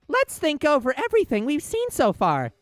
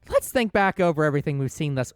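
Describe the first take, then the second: First: It is said in an imitation of Dora's voice. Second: It is said in the speaker's normal voice.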